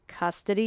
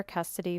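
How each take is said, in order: First: Custody rising like a question; questioning echo. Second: Said in the usual way. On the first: Acted. Blogger voices the reader's query, questioning Custody. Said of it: "you ask?". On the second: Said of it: "Custody, you ask?".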